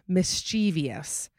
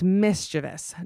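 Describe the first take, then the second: First: The word has an extra 'ee' syllable before '-ous'. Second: The word is said with three syllables. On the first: The speaker calls it wrong. "not mischievous. There's no I in between the V and the O" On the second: The speaker calls it right. "it's mischievous"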